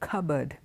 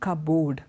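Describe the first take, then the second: First: It is blended, with a weak second vowel. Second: It sounds like two words, cup and board. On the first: The speaker calls it right. "It's not O, the sound's not cupboard, it is a" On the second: The speaker calls it wrong. "it looks like two individual words, cup and board"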